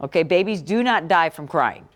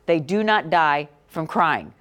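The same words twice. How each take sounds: First: Said in the usual way. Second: "not" leaned on and held, the whole line said slowly; slow it right down and press on "not"; slow emphatic stress on not. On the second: Shown as a demonstration. Teacher to class, repeating the fact with slow stress on "not".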